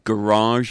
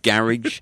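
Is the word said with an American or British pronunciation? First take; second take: American; British. First: The word is said with an American pronunciation. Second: The word is said with a British pronunciation. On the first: It is adapted for an American audience. "I even mispronounce some words" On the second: It is the speaker's usual way of saying it. "instead of garage"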